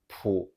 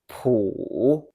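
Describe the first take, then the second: First: The pitch stays low without rising. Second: The pitch dips low and then rises. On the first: "the daily pronunciation is pu" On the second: "The full third tone is pu"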